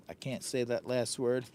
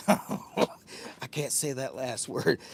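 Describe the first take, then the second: First: Said in the usual way. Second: Slow words broken by laughter; laughing. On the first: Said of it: "This has got me tongue twisted". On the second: Real, not acted. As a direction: laugh your way through the line.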